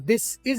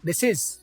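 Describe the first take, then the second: First: The two words are said separately. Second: The two words are joined together.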